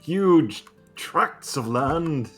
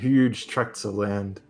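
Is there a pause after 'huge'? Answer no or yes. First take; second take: yes; no. First: There is a clear pause after 'huge'. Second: It runs straight on with no pause after 'huge'. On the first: The speaker calls it right. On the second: The speaker calls it wrong.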